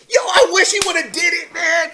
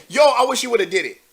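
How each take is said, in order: First: High, loud exclamation of gleeful wishing; excited shout. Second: Said in the usual way. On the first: Real, not acted. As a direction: shout it out, pitched way up. Excited outburst at imagined scene.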